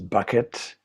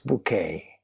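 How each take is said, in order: First: The name is said like the word bucket. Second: The name is said like the word bouquet. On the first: "as most people pronounce it" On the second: "she will stop you there and insist, no, it's bouquet"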